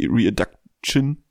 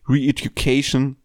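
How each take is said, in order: First: The word is garbled as a spelling misreading. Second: The word has its usual English pronunciation. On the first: The speaker calls it wrong. "oder wie ich damals sagte, weil ich nicht Englisch lesen konnte" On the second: The speaker calls it right. "mein damaliger absoluter Lieblingssong"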